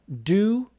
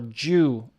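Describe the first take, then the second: First: The word begins with a plain D sound. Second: The word begins with a J sound.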